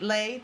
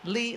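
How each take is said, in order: First: The name ends with an 'ay' vowel. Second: The name ends with an 'ee' vowel. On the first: The speaker calls it right. "My name is pronounced Lay" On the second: The speaker calls it wrong. "sorry, I pronounced it Lee"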